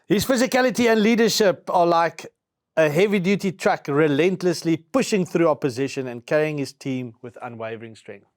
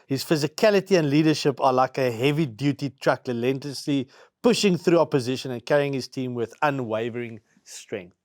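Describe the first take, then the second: First: It is read quickly with more energy. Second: It is read at a plain, calm pace.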